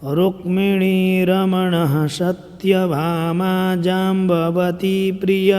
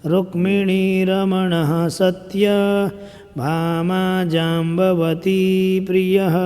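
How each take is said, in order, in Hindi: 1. Satyabhama बिना रुके लगातार पढ़ा जाता है। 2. satya और bhama के बीच रुकना है। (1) "अब कंटिन्यू में पढ़ेंगे तो ऐसा होगा।" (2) "लेकिन हमको यहाँ रुकना है।"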